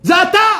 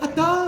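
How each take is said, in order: First: The word is shouted with full force. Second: The word is said weakly and hesitantly. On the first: It comes from the depths of one's being. The speaker calls it right. "Avec toute, toute ta force" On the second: It is said without real conviction. The speaker calls it wrong. "c'est pas comme ça que ça fonctionne"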